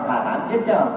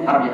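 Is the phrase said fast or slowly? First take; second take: slowly; fast. First: The phrase is said slowly with clear words. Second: The phrase is said fast with words run together. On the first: It names the holy land and the city. "dia cerita nama tanah haram tentu Mekah ke Jeddah" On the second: It sounds like a curse word. "Tapi laju"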